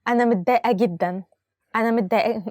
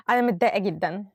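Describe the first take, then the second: First: Giggling through the upset sentence; can't keep a straight face, laughing as she says it. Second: A touch of sadness, without the laugh; mildly upset. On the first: Teacher tries to sound upset but laughs. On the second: Teacher retries the example sounding mildly upset. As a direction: say it straight, a little down. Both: Shown as a demonstration. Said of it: "I cannot say it with a smiling face".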